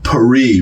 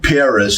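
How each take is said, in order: First: It is said with a French pronunciation. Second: It is said with an English pronunciation. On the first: "which is how the the, uh, the French pronounce it" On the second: "us saying Paris"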